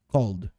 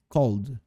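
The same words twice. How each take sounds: No difference in how they are said.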